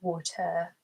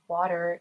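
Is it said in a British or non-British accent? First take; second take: British; non-British. First: It is said in a British accent. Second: It is said in a non-British accent.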